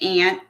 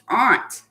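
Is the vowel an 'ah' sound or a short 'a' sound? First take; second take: short a; ah. First: The vowel is a short 'a', like 'ant'. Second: The vowel is an open 'ah' sound. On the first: The speaker calls it wrong. "A lot of people pronounce it ant" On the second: The speaker calls it right. "it actually should be pronounced aunt because it starts with A U"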